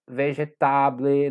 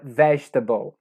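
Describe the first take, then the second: First: The stress falls on a later syllable. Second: The stress falls on the first syllable. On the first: The speaker calls it wrong. "não é vegetable" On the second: The speaker calls it right. "a primeira sílaba tônica"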